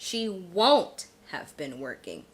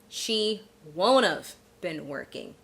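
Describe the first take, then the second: First: The word 'have' is said fully after 'won't'. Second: The word 'have' is reduced onto 'won't'. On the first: "we could say she won't have been working" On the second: "you can contract will not have"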